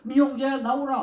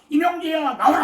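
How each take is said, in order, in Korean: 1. 조용하고 부드럽게 말합니다. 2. 큰 목소리로 외칩니다. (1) "그냥 조근조근" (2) "큰 소리로 외쳐가지고"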